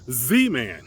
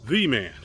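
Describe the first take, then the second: First: The word 'the' begins with a Z sound. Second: The word 'the' begins with a TH sound. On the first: "in French the th sound is not there either. So uh, they say Z man" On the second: "instead of the man"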